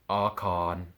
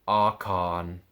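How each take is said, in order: No difference in how they are said.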